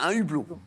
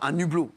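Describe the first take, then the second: First: Hublot starts without a linking n sound. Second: The n sound links into hublot. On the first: The speaker calls it right. "Parce qu'on fait pas la liaison" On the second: The speaker calls it wrong. "pas un hublot"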